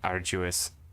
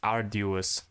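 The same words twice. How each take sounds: First: The middle consonant is a J-like sound. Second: The middle consonant is a plain D sound. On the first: The speaker calls it right. "There's no J, there's no G" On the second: The speaker calls it wrong. "I thought that this was with D"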